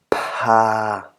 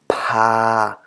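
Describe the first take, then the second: Both takes have the same delivery.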